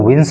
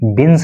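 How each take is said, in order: First: The word begins with a v sound. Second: The word begins with a b sound. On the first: The speaker calls it right. "आपको इसको विंस बोलना है" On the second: The speaker calls it wrong. "इसको आपको बिंस नहीं बोलना है"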